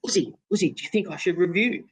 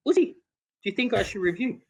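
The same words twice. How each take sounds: First: High, pleading question to a silent partner; anxious plea to Uzi, pitched high; pleading mate. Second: High, pleading repeat after no reply; high pleading plea to a silent Uzi; pleading again. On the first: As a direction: beg your batting partner for an answer. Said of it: "you know, like". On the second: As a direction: ask once more, still getting silence. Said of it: "He did not say a word". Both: Retold or imitated.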